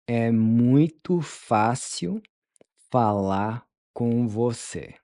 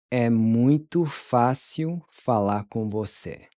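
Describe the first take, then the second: First: "É muito fácil" drawn out, then "falar com você"; slow it down, chunk by chunk; slow chunked model. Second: Said in the usual way. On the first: Shown as a demonstration. Teacher modeling the phrase slowly for students. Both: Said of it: "How would you tell them".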